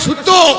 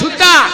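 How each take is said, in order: First: The word ends in a rounded o vowel. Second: The word ends in an open a vowel. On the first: This is how people in Bardhaman say it. "আমরা বর্ধমানে সুতো" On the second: This is how people in Nadia say it. "নদিয়াতে বললে সুতা"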